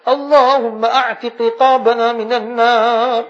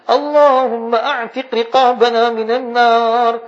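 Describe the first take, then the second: No difference in how they are said.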